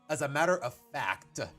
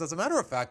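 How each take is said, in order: First: The 'c' sound in 'fact' is stressed clearly. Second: The 'c' sound in 'fact' is weak. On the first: The speaker calls it right. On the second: The speaker calls it wrong.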